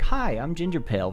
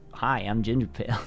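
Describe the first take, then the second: First: It is said in a lively, upbeat way. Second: It is said in a flat, everyday way. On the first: This is the voice used for recording videos. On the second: This is the everyday voice.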